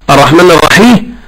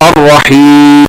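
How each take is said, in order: First: The ya is split into an extra vowelled syllable. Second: The ya runs straight into the final consonant. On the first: The speaker calls it wrong. "يم هذه ياء مكسورة ... هذا خطأ" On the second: The speaker calls it right. "الياء كما هي، ويدخل عليها الحرف الأخير يقطع الصوت بالياء"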